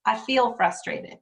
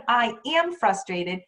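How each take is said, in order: First: Slow, lean on the word feel; stress on feel. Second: Said in the usual way. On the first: Shown as a demonstration. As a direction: underline feel to show the better phrasing. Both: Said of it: "instead of".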